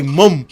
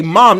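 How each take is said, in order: First: Detto all'inglese, mum con la u chiusa; 1 mock British mum. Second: Said in the usual way. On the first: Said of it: "They say". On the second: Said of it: "They don't even sit up there and say".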